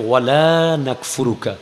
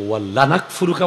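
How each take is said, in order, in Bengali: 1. l ধ্বনিটি হ্রস্ব, আলাদা 'la'। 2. l ধ্বনিটি দ্বিত্ব, একসাথে 'walla' হিসেবে পড়া হয়। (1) "একটা লায়ে নফি ... আমরা আপনার কুফরি করি না" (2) "একটা লামে তাকিদ ... অবশ্যই কুফরি করি"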